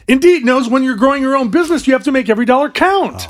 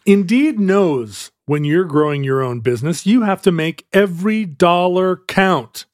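First: It sounds urgent and alarmed, like there's a fire. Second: It sounds hesitant, unsure how the sentence ends.

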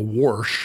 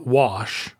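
First: The word is said in a regional rural accent. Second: The word is said in a standard accent. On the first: This is how the family said it back then. "as they would have said" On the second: This is how the mother says it now. "she says things like"

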